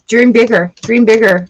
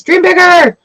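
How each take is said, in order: First: Said in the usual way. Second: High, loud cheer of dream bigger; shouting encouragement. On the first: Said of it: "repeated encouragement". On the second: Real, not acted. Reader cheers Sagittarius viewers to dream bigger. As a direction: yell it to the viewer to push them. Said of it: "shouted encouragement".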